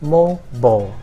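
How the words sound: It is said with an American pronunciation. "American people would say mobile"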